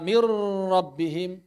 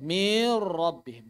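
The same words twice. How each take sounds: First: The sound is held and flows through the nose. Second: The sound before the r is drawn out long. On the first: "Menahan suara ... Tidak tepat" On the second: "memanjangkan suara ... Juga tidak tepat"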